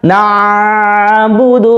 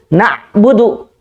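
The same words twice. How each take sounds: First: The ain sound is held and drawn out long. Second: The ain sound is stopped abruptly and hard. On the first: "kelamaan jadi seperti rokhawah" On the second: "mentok, berarti dia sudah menerapkan sifat syiddah"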